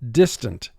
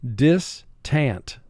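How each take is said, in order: First: The second syllable has a weak, reduced vowel. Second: The second syllable has a full, clear vowel. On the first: This is how it is said in normal conversation. "our speaking vocabulary for this in conversation is distant" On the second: This is said to help with the spelling. "But for spelling, pronounce it distant"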